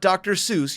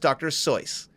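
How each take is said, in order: First: Seuss is said with a common English pronunciation. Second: Seuss is said with a German pronunciation. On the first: The speaker calls it wrong. "it's not Doctor Seuss. You're saying it wrong" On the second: The speaker calls it right. "He's German. That's the way it's pronounced"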